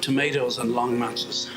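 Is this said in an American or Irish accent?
American. It is said in an American accent.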